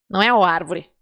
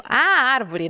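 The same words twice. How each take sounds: First: The article "o" picked out before "árvore"; stress on O. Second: The article "A" drawn out before "árvore"; stress on A. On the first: Teacher rejects the masculine article, stressing O. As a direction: lean on "o" in "o árvore" as the wrong article. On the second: Teacher shows the noun is feminine, stressing A. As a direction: lean on "A" in "A árvore". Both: Shown as a demonstration. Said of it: "é feminino ou masculino?".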